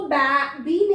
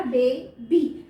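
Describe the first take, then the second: First: बे said as short "ba" as in bat, then बी; wrong reading of बे, बी with short A; short A mispronunciation. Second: बे, बी with an open long "ay" in बे. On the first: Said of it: "नहीं पढ़ा". (बे को छोटी "बै" आवाज़ में, फिर बी) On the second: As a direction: say बे as "bay", pause, then बी. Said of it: "इसको मैंने पढ़ा". (बे में लंबी ए, फिर अलग से बी) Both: Shown as a demonstration.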